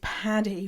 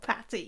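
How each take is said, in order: First: The middle consonant is a D sound. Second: The middle consonant is a T sound. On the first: The speaker calls it right. "It's Paddy with T's" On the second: The speaker calls it wrong. "not Patty with T's"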